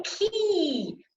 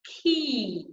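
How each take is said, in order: First: High, over-spread "ki", held long; overdone vowel. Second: Long "ki", less exaggerated, gliding down; needed vowel. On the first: Coach showing "ki" taken too far, exaggerated. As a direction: push "ki" too far on a high falling glide. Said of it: "That's too far". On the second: Coach showing the "ki" that is needed, held and moderate. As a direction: hold a clean "ki" without overdoing it. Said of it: "We need ki". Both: Shown as a demonstration.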